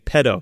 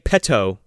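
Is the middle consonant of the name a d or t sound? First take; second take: d; t. First: The middle consonant is a soft d sound. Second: The middle consonant is a crisp t sound. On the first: "you're saying it with two D's" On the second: "you're not saying it with two T's"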